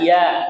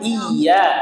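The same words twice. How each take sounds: First: The y sound is single and light. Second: The y sound is doubled and pressed. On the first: The speaker calls it wrong. "jangan dibaca" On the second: The speaker calls it right. "penekanannya di tasydid"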